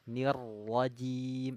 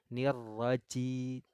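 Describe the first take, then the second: First: The consonant is a voiced j sound. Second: The consonant is a voiceless ch sound. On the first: The speaker calls it right. "Huruf jim keluarnya di tengah lidah" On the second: The speaker calls it wrong. "Jangan nirwaci"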